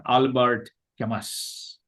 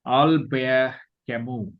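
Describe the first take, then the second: First: Albert Camus as "AL-bart KAM-us"; anglicised pronunciation. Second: Albert Camus as "al-BEAR ka-MOO"; French pronunciation. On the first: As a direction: say "Albert Camus" with T and final S sounded. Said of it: "not Albert Camus". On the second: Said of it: "of this word is Albert". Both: Shown as a demonstration.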